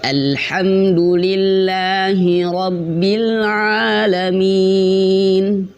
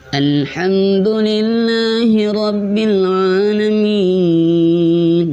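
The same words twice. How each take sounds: First: It is said without a nasal voice. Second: It is said with a nasal voice.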